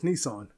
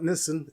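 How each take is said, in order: First: It is said the American way. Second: It is said the non-American way. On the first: The speaker calls it right. "it's Nissan. Always has been" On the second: The speaker calls it wrong. "it's not Nissan"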